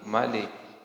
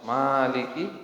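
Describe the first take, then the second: First: The first vowel is kept short. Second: The first vowel is drawn out long. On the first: "boleh tidak" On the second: "Boleh lebih panjang"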